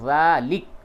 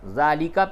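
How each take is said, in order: First: The word ends on the k consonant. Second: The word ends with a final a vowel. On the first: The reciter stops on this word. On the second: The reciter continues without stopping.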